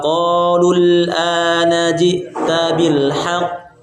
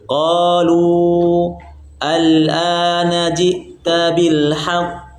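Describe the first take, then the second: First: The vowel is short and runs straight into 'al'. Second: The vowel is long, then a stop before 'al'. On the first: "Cara bacaan yang pertama" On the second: "Cara baca yang kedua"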